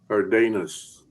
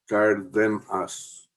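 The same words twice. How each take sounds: First: The second syllable has an 'ay' vowel. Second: The second syllable has a short 'eh' vowel. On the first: The speaker calls it wrong. "make the mistake of pronouncing every letter E in Spanish as a A" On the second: The speaker calls it right. "the second syllable is like uh, hiding in a den"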